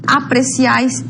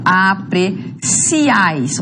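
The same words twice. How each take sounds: First: Said in the usual way. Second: "apreciáis" very slow, broken as a-pre-ciáis; "apreciáis" with a long, whole final "ciáis"; split syllables. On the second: Shown as a demonstration. Teacher separates syllables to show triphthong.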